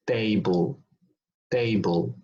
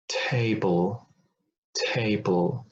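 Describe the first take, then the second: First: TABLE with no breath after the T, like "dable"; unaspirated T. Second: TABLE with a puff of air after the T; aspirated T. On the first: Teacher showing what to avoid, TABLE without aspiration. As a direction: keep the T of TABLE tight and airless. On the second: Teacher giving the correct example, TABLE with aspiration. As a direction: breathe out on the T of TABLE. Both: Shown as a demonstration. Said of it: "and not".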